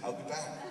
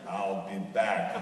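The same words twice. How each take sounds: First: It is said in a plain, ordinary way. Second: It is said in the Terminator movie style.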